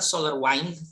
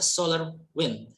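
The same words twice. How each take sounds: First: Wind has the long vowel heard in winding. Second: Wind has the short vowel heard in pinned. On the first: It means to turn or coil something. The speaker calls it wrong. "not solar wind as you as we have in winding" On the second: It means a flow of air or particles. The speaker calls it right. "but it's a solar wind, talking about a certain flow of air"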